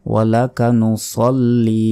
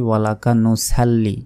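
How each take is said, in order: First: "নুসল্লি" with heavy sad, rounded "sol"; measured "নুসল্লি", drawing out the last i; সঠিক উচ্চারণ. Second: "নুসাল্লি" with a thin s and open "sal"; quick "নুসাল্লি" with short final i; ভুল উচ্চারণ. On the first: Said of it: "সঠিক উচ্চারণটা হচ্ছে নুসল্লি". ("নুসল্লি" মোটা সদ দিয়ে, শেষে টান) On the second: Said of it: "এটা কিন্তু ভুল". ("নুসাল্লি" পাতলা স দিয়ে, সাল বলে) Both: Shown as a demonstration.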